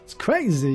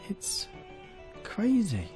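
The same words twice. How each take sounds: First: Spoken in an imitated, put-on celebrity voice. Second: Spoken in the speaker's own natural voice.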